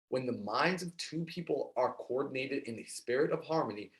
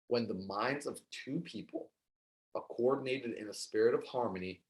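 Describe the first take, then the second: First: It is read at a normal pace. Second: It is read a little more slowly.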